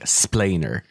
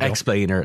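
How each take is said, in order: First: The word begins directly with 'spl', no 'ex'. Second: The word begins with a full 'ex' syllable. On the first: "like a child who can't fully pronounce the word" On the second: "not explainer"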